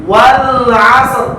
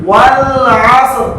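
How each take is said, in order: The two takes are said the same way.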